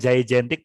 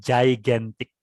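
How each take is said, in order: First: The first g is a hard g sound. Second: The first g is a j sound. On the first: The speaker calls it wrong. "bukan gigantic" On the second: The speaker calls it right. "yang G yang satu dibaca J, yang satu tetap dibaca G"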